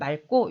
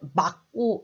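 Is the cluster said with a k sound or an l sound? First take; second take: l sound; k sound. First: The cluster is said with the l sound. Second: The cluster is said with the k sound. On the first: The speaker calls it right. "그냥 다 같이 자연스럽게" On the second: The speaker calls it wrong. "누가 오늘 날씨가 맑고 이렇게 발음하는 사람 봤어요?"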